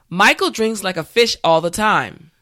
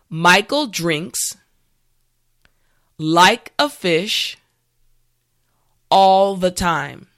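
First: The sentence is said at natural speed. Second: The sentence is said slowly and carefully. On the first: "the last time at a regular pace" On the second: "this time repeat after me"

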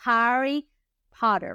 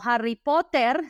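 First: The name is pronounced with English sounds. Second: The name is pronounced with Spanish sounds. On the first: The speaker calls it right. "lo vamos a pronunciar bien" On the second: The speaker calls it wrong. "No Harry Potter"

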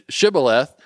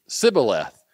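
First: The word begins with an sh sound. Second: The word begins with an s sound.

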